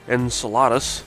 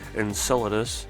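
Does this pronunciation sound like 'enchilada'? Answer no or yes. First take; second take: yes; no. First: It is said with an enchilada-like sound. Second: It is said without an enchilada-like sound. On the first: The speaker calls it wrong. "which to me sounds like enchilada" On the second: The speaker calls it right. "I prefer the the pronunciation Enceladus"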